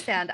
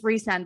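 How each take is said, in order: First: The first syllable sounds like 'rice'. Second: The first syllable sounds like 'reese'. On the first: This is how an American reader sees it. "it will always be Rhysand. I always read it as Rice" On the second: This follows the Welsh name. "also is like, it's Rhysand"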